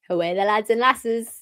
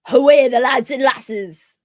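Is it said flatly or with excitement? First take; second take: flatly; excitement. First: It is said flatly, without much energy. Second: It is said with lots of excited energy.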